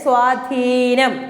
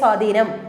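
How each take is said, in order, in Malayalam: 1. 'dh' ശബ്ദത്തിന് ശേഷമുള്ള സ്വരം ദീർഘമാണ്. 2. 'dh' ശബ്ദത്തിന് ശേഷമുള്ള സ്വരം ഹ്രസ്വമാണ്. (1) "ധായിക്ക് നീട്ടി ദീർഘാക്ഷരത്തിലാണ് സ്വാധീനം" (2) "നമ്മൾ പറയുമ്പോൾ സ്വാധീനം, സ്വാധീനം എന്ന് പറയുന്നുണ്ട്, പക്ഷെ അത് തെറ്റാണ്"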